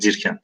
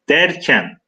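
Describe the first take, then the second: First: The first vowel is a close i sound. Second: The first vowel is an open e sound. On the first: This is the older written form. "Dirken diye yazılıyor" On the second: This is the form used today. "fakat günümüz Türkçesine göre"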